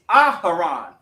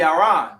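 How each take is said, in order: First: The name is said the ancient Hebrew way. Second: The name is said the Yiddish way. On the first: "in the actual ancient, it's Aharon" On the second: "if you really want to say it in the Yiddish"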